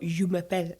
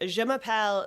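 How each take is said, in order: First: It is said with a French accent. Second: It is said with an English-sounding accent. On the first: The speaker calls it right. "And the teacher said, no" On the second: The speaker calls it wrong. "I thought it was an offensive thing to do a French accent. So I'd be like"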